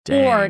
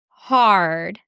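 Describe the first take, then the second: First: The vowel is a rounded 'oh' sound. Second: The vowel is an open 'ah' sound.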